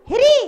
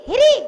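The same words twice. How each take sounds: No difference in how they are said.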